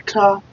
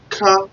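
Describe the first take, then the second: First: Ka high and short, repeated; syllable Ka again. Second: Ka high and short; syllable Ka. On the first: Teacher repeating Ka for the class. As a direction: pop Ka up high once more. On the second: Teacher modelling first syllable Ka. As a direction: pop Ka up high. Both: Shown as a demonstration. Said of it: "So you pronounce it this way".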